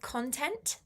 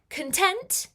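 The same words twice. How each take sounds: First: The stress is on the first syllable. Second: The stress is on the second syllable. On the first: Material made for media. "That's with emphasis on con" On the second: Feeling satisfied and happy. "which has a bit more emphasis on the tent part"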